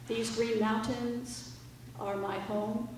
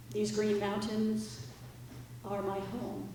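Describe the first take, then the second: No difference in how they are said.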